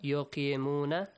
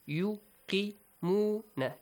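First: The vowels are pronounced in a non-Arabic way. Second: The vowels are pronounced in an Arabic way. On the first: The speaker calls it wrong. "Not yuqimuna, no" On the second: The speaker calls it right. "It should be an Arabic reading"

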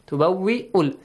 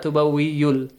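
First: A glottal stop is heard in the middle. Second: A y sound is heard in the middle. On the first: The speaker calls it right. "Ya is just a base" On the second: The speaker calls it wrong. "So it's not tubawwi'ul"

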